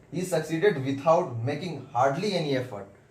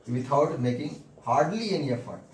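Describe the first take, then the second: First: Very slow, every word spaced out; slow dictation. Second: Very slow, word by word, for students to write; slow dictation. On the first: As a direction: read it out slowly so the class can copy. Teacher dictating full sentence. (बहुत धीरे, शब्द-शब्द लिखवाते हुए) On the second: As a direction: dictate it slowly, each word apart. Teacher dictating corrected sentence. (धीरे-धीरे बोलकर लिखवाना) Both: Shown as a demonstration.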